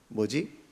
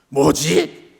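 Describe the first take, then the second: First: It sounds curious and questioning. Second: It sounds angry and irritated. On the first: The speaker wonders what something is. "궁금한 뭐지?" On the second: The speaker is annoyed by something. "화가 난 뭐지도 있습니다"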